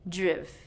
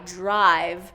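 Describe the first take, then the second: First: The vowel is a short I sound. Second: The vowel is a long I sound. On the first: The speaker calls it wrong. "reducing it to that short vowel sound" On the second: The speaker calls it right. "with that long I"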